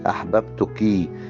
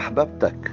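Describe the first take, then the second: First: The word ends with a short 'i' vowel. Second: The word ends with a short 'a' vowel. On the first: A woman is being addressed. The speaker calls it right. "النطق الصح" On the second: A man is being addressed. The speaker calls it wrong. "النطق ده غير صحيح"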